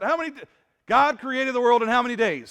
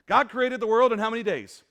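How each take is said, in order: First: Asked again, louder and more pushing; louder repeat to the crowd. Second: Calling out to the congregation. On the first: Preacher repeating his question louder to a sleepy crowd, loud and pushing. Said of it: "Only two people answered that". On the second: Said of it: "Come on, guys". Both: Real, not acted.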